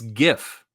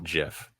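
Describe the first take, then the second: First: It begins with a hard G sound. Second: It begins with a soft J-like sound. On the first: The speaker calls it right. "It's GIF" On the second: The speaker calls it wrong. "It is not GIF"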